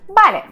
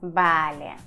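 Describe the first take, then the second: First: It is energetic, with the pitch rising. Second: It is long and drawn out. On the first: The speaker agrees and feels motivated. "Энергично, с повышением" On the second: The speaker is sarcastic or irritated. "Длинное, растянутое"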